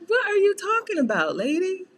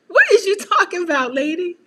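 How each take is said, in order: First: High, baffled question; mock baffled daughter. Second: High, loud, baffled question breaking into a laugh; mock baffled daughter. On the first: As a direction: go high and incredulous at mom. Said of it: "I'm like". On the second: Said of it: "I be like".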